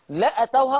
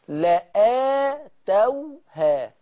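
First: The vowel after the glottal stop is short. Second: The vowel after the glottal stop is long. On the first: The speaker calls it wrong. "لأتوها خطأ" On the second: The speaker calls it right. "لآتوها هكذا تنطق"

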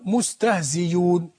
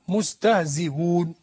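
First: The hamza is replaced by a ya sound. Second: The hamza is softened between hamza and waw. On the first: "بإبدال الهمزة بياء" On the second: "بالتسهيل"

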